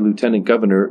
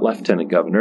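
First: Lieutenant is said without an F sound. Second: Lieutenant is said with an F sound. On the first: This is how it is said in this country. The speaker calls it right. "we say lieutenant governor" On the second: This is the British way of saying it. The speaker calls it wrong. "not lieutenant governor. ... Where is the F in lieutenant? ... It's a British thing"

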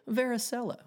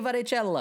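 First: The word is pronounced in an English style. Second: The word is pronounced in an Italian style. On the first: The speaker calls it right. "I don't say varicella" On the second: The speaker calls it wrong. "I've spent my entire life eating Italian food, and when I see a word like varicella, I say varicella"

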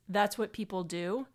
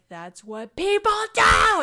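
First: The line is said at a calm, normal volume. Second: The line is screamed loudly. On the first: This is how the line was expected to be delivered. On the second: This unexpected delivery surprised the listeners.

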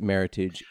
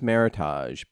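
First: The word is pronounced with English sounds. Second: The word is pronounced with French sounds. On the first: "they co-opted that term and they pronounce it Meritage" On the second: "if you were French, you would think, oh, it's pronounced Meritage"

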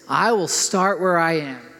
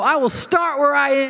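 First: It is said calmly, with ordinary energy. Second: It is said with more gusto and energy.

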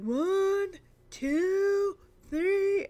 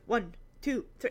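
First: The counting is slow and drawn out. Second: The counting is quick.

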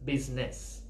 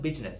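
First: The middle consonant sounds like a 'z'. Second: The middle consonant sounds like a 'j'. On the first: The speaker calls it right. "it's business" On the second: The speaker calls it wrong. "Now it's not business"

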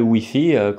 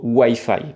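First: It is pronounced the French way. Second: It is pronounced the American English way. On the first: This is how the French say it. "comme on le dit bien... de façon bien franchouillarde" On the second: This is how Colombians say it. "les Colombiens ont récupéré cette prononciation à l'américaine"

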